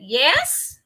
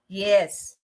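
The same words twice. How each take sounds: First: The pitch rises on the word. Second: The pitch falls on the word. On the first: "If it's rising" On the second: "If it's falling"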